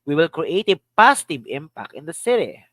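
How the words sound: The word "positive" carries the main stress. "Another. Positive"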